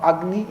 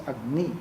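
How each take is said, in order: First: "Agni" accented at the front, AG-ni; stress on first syllable. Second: "Agni" accented on the end, ag-NI; stress on last syllable. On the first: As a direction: hit the opening syllable of "Agni". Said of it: "No, it is not Agni". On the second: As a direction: lean on the final syllable of "Agni". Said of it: "it is Agni". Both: Shown as a demonstration.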